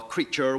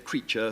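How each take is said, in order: First: The final R sound is clearly pronounced. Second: The final R sound is left out. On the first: This is the older way of saying it. "instead of saying feature or, or creature" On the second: This is the later way of saying it. "we just say creature"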